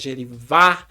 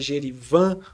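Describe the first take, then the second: First: The final stressed vowel is open. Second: The final stressed vowel is closed. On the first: "se o acento é agudo, geralmente vai ser uma forma aberta" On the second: "Se o acento for circunflexo, ... uma forma mais fechada"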